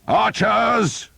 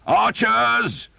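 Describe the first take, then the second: First: High loud call; shout. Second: High loud call; shout again. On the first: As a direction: summon the archers across the field. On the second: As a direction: call them once more. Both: Acted. Earl calling archers in battle, high loud shout. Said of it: "the Earl shouted".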